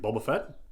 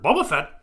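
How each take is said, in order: First: It is said in his normal voice. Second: It is said imitating Han Solo.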